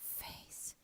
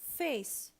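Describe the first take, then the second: First: It is whispered without voice. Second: It is spoken aloud with full voice.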